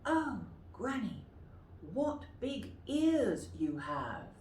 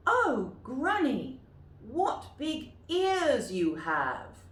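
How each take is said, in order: First: Softer Red Riding Hood. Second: Put-on high, slow, loud girl's voice; wide-eyed girl, drawn out slowly; Red Riding Hood. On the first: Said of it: "Would you like to say that?". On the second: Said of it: "you might like to practice them". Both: Shown as a demonstration.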